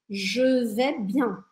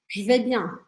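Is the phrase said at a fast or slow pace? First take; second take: slow; fast. First: The phrase is said slowly, with each word clear. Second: The phrase is said quickly, with je almost dropped.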